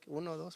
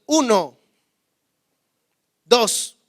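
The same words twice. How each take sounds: First: Soft, hushed count; a gentle, barely-there counting; quiet version of the count for the sister. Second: Put-on loud, firm count to a child; slow, loud warning count to a son. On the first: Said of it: "para usted". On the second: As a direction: count it out like a stern parent. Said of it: "yo no tengo que gritarle". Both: Shown as a demonstration.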